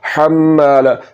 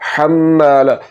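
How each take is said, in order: No difference in how they are said.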